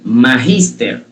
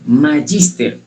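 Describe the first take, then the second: First: The g is pronounced like a Spanish j. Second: The g is pronounced as a hard g. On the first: The speaker calls it right. "la G se debe pronunciar como una J" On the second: The speaker calls it wrong. "la mayoría de las personas pronuncian esa palabra diciendo"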